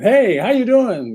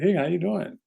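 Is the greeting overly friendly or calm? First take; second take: overly friendly; calm. First: It sounds overly friendly and eager. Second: It sounds calm and non-threatening.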